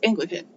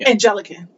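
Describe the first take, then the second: First: The word has three syllables, with no extra vowel. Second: The word has four syllables, with an extra middle vowel. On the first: The speaker calls it right. "But it's Anglican" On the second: The speaker calls it wrong. "mispronounced it the same way"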